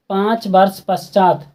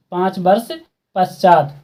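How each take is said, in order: Both takes have the same delivery.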